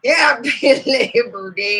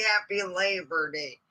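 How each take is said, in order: First: Laughing through it. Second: Said in the usual way. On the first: Retold or imitated. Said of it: "he goes". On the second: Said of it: "Let's bring out Miss Snakers herself".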